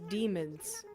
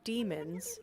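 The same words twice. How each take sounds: First: The word ends with an added D sound. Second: The word ends with a plain Z sound. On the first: "with a D at the end" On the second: "instead of saying demons"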